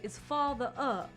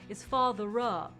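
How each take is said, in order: First: Father and up are kept apart, unlinked. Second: Father and up run together as one unit. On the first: The speaker calls it right. "You would say is father up, like that. So you wouldn't connect father and up" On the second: The speaker calls it wrong. "you wouldn't say is father up"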